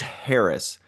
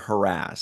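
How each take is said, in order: First: It is said the way the speaker finds odd. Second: It is said the speaker's usual way.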